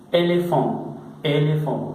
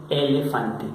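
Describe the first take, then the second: First: "elefant" said the French way, with a nasal ending and no final e; French pronunciation. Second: "elefante" said the Spanish way, with every syllable and a clear final e; Spanish pronunciation. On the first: Teacher contrasting French with Spanish for students, French "elefant". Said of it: "que se pronuncia como en el español". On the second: Teacher contrasting with the Spanish word for students, Spanish "elefante". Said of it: "como si dijéramos en español". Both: Shown as a demonstration.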